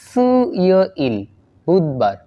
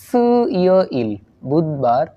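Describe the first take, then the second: The two takes are said the same way.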